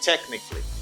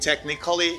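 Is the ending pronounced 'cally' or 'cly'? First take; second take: cly; cally. First: The ending is one syllable, like 'cly'. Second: The ending is two syllables, like 'ca-lly'. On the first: The speaker calls it right. "you say technically" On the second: The speaker calls it wrong. "don't say technically"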